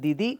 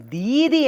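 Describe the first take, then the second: First: It uses a plain d and short vowels. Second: It uses a breathy dh and long vowels. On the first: "if you want to say you're north of India, then you must say D I D I as in Didi" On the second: "when you go south, they say D H E E"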